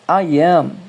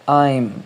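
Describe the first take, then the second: First: It is said as two separate full words. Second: It is said as one contracted syllable. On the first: "I am se torna I'm" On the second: "se torna I'm"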